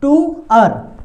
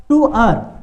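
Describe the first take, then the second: First: "टू अर" split in two parts, a bit louder; model pronunciation. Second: Said in the usual way. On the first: Shown as a demonstration. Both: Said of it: "बन जाएगा ये शब्द क्या".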